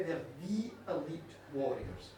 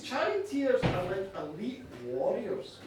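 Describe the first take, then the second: First: "the" said as a full, emphatic "thee"; stress on "the". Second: Said in the usual way. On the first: Shown as a demonstration. Storyteller corrects herself on their rank, stressing "the" as "thee". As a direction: lean on "the" as "thee", then drop softer and lower.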